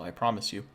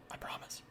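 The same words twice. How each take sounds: First: Said in the usual way. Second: Whispered aside to the viewer; hushed, confiding repeat of the promise. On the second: Real, not acted. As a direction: breathe it out, no voice.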